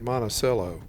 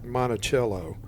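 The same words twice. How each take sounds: First: It is pronounced the way locals say it. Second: It is pronounced unlike the way locals say it. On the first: This is how people in the town say it. The speaker calls it right. "locals pronounce it" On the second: This is how outsiders might say it. The speaker calls it wrong. "not like"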